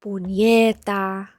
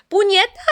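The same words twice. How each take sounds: First: Puñeta drawn out slow and low, Spanish ñ; slow Spanish demo. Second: Puñeta with a rolled Spanish ñ, said up high; Spanish swear word. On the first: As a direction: teach puñeta slowly, Spanish style. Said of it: "Puñeta is like". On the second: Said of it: "Can I learn how to say fuck in Spanish?". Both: Shown as a demonstration.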